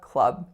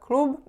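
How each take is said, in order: First: The vowel is a relaxed 'uh' sound. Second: The vowel is a pure 'oo' sound. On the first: The speaker calls it right. "it's a club" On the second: The speaker calls it wrong. "more of a pure U sound, but it's not a klub"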